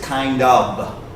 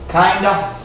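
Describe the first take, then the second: First: The two words are said fully and separately. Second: The two words are run together into one. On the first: The speaker calls it right. "He really should have said kind of" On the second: The speaker calls it wrong. "a lot of people will run it together like that and it sounds like kinda"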